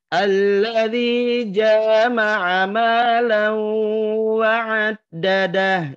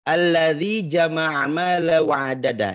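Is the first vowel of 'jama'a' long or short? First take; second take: long; short. First: The vowel after 'j' is drawn out long. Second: The vowel after 'j' is short.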